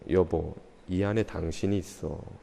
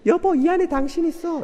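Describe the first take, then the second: First: It is said in a deep baritone voice. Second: It is said in a higher, lighter voice. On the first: The speaker calls it right. "바리톤으로" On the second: The speaker calls it wrong. "이러면은 이게 안 하는 일만 못해요"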